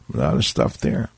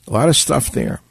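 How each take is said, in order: First: "A lot of stuff there" dropped low and soft, almost under the breath; 1 muttered aside. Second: Said in the usual way. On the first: Shown as a demonstration. Host echoing his own remark, low and quiet.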